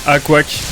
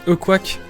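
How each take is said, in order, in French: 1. Le nom commence par une voyelle 'ah'. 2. Le nom commence par une voyelle 'uh'. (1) "Tout le monde disait A Quack" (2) "ça se dit E Quack"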